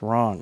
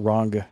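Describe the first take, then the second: First: The word ends without a hard G sound. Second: The word ends with a hard G sound. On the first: The speaker calls it right. "It's wrong" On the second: The speaker calls it wrong. "I really hit that G hard"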